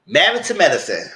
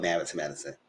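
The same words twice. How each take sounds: First: Louder, punchy announcement of the show; show title announced. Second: Said in the usual way. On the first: Acted. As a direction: call out the title like a host.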